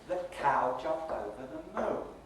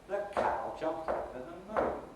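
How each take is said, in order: No difference in how they are said.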